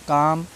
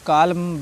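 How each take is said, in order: First: The L is silent before the M. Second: An L sound is pronounced before the M. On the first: The speaker calls it right. "एल silent है" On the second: The speaker calls it wrong. "ऐसे नहीं पढ़ना है"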